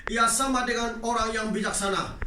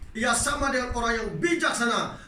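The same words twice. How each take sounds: Both takes have the same delivery.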